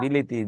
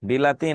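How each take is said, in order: First: The middle vowel is a close 'i'. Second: The middle vowel is an open 'a'. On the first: This is the form used by unschooled rural speakers. "বিলাতি থেকে বিলিতি" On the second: This is the standard educated form. "আপনারা কেউ বিলাতিরে বিলিতি বলেন না"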